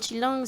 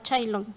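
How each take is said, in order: First: The name is said with its local pronunciation. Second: The name is said with a foreign-sounding pronunciation. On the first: This is the family's own name. The speaker calls it right. "a los que nos apellidamos Chilón" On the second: Outsiders changed the name. The speaker calls it wrong. "ya nos llaman ahora Chailón"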